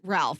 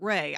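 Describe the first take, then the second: First: The name is said as spelled, with an L. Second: The name is said like 'Ray', without an L. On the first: The speaker calls it wrong. "You don't pronounce it Ralph" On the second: The speaker calls it right. "you pronounce it Ray"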